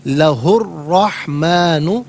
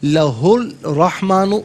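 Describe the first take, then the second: First: The l merges fully into a doubled r. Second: A separate l sound is heard before the r. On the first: The speaker calls it right. "ये सही है" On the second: The speaker calls it wrong. "गलत"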